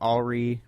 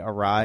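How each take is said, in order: First: The word ends rhyming with free. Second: The word ends rhyming with sky. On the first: The speaker calls it wrong. "they say alry" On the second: The speaker calls it right. "means to say awry"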